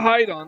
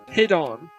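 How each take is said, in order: First: It does not sound like the word 'hidden'. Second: It sounds like the word 'hidden'. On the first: The speaker calls it wrong. "the pronunciation is not Hidon" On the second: The speaker calls it right. "it's Hidon. Because, get it? The word is derived from hidden"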